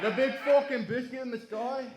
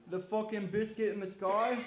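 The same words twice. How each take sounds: First: Much higher, louder mock British accent with a laugh, rising on sky; hammed-up British accent. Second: A higher-pitched mock British accent, rising on sky. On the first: Comedian hamming up a Brit in his joke, loud British accent. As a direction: push the British accent over the top, laughing. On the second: Comedian replaying his joke in a mock British accent. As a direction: lampoon a Brit asking about the moon in a British accent. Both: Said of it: "That's my British accent".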